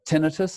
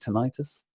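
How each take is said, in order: First: It is said the British English way. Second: It is said the American English way.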